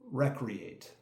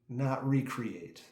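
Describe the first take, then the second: First: It begins with 'rek', stressed on the first syllable. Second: It begins with 'ree', stressed on 'create'. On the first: Taking part in leisure activity like hunting. The speaker calls it right. "as it's pronounced correctly within that context" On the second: Creating something again. The speaker calls it wrong.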